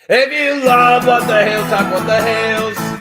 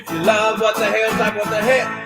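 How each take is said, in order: First: It is said at a slower pace. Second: It is said at a faster pace.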